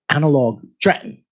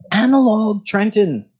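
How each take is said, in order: First: Trenton is said with the middle t dropped. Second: Trenton is said with a clear middle t. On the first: The speaker calls it right. "the way it belongs" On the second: The speaker calls it wrong. "let me redo that"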